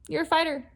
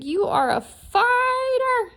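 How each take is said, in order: First: Said in the usual way. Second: High, loud and slow declaration; emphatic. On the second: Shown as a demonstration. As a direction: proclaim fighter with full force.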